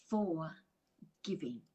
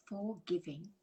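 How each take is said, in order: First: "forgiving" said slowly as "for... giving" with a break; split into two parts. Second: Said in the usual way. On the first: Shown as a demonstration. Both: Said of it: "can be broken up into".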